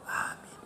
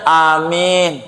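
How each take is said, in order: First: It is said very quietly. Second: It is said very loudly.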